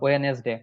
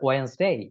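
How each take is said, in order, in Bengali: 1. এটি 'we-nes' দিয়ে শুরু হয়, দুটি দল, কোনো 'd' ধ্বনি নেই। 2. এটি 'wens' দিয়ে শুরু হয়, একটি দল, কোনো 'd' ধ্বনি নেই। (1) "একটাও রাইট না" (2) "এটার রাইট উচ্চারণ যেটা"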